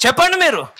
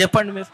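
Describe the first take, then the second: First: Pressing demand. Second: Said in the usual way. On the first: Real, not acted. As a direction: push the congregation with చెప్పండి. Preacher repeats demand, pressing.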